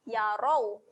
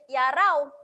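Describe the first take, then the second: First: The r sound is thick and heavy. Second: The r sound is thin and light. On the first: The speaker calls it right. "huruf ra dibaca dengan tebal" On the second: The speaker calls it wrong. "Jangan bunyi yarau. Yarau salah"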